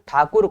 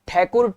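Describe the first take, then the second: First: It is said with a native Hindi pronunciation. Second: It is said with an English-style pronunciation.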